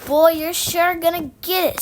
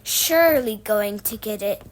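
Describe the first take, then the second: First: Loud, higher-pitched taunt; gloating. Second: Lower, precise wording of "Surely going to"; correcting. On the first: Scooter to Henry as police take him, loud gloating. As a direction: crow it at him, raised and loud. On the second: Apple lady correcting Scooter, precise and lower-pitched. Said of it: "corrected the apple lady". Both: A narrator's reading.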